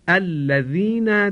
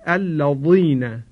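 First: The dh sound is light and thin. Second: The dh sound is heavy and thick. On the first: The speaker calls it right. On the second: The speaker calls it wrong.

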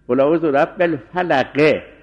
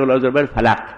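First: The last word ends with a short 'i' vowel. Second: The last word ends on a bare consonant. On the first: The final vowel is kept. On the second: The final vowel is dropped.

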